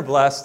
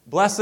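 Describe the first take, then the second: First: "blessed" as one syllable, blest. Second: "Blessed" as two syllables, BLESS-id. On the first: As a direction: end "blessed" on a t, no second syllable. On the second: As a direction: sound the ending of "Blessed" as its own syllable. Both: Shown as a demonstration. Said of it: "however we say it".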